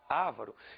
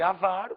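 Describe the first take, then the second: First: The stress is on the first syllable. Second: The stress is on the second syllable. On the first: The speaker calls it wrong. "poderiam dizer ávaro" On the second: The speaker calls it right. "Em vez de avaro"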